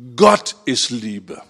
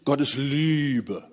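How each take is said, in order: First: The stress falls on the word Gott. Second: The stress falls on the word Liebe. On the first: God defines what love is. The speaker calls it right. "Lerne es so zu betonen" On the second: One's own idea of love defines God. The speaker calls it wrong.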